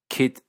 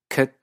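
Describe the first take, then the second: First: Spoken with an Australian accent, vowel near ee. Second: Spoken with a New Zealand accent, centralized vowel. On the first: "ciertos acentos australianos" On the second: "ciertos neozelandeses"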